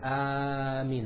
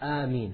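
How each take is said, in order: First: The first vowel is drawn out much longer. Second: The first vowel is held for a moderate length. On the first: The speaker calls it wrong. "You're not allowed to make it Ameen, that's not allowed" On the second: The speaker calls it right. "The first alif should be two harakas"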